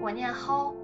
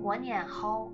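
First: It is said in a Henan accent, rising. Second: It is said in a Shaanxi accent, falling.

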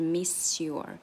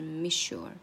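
First: The s stays a clear s before your. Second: The s blends into a sh sound before your. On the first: The speaker calls it wrong. "而不是miss your" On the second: The speaker calls it right. "就是miss your"

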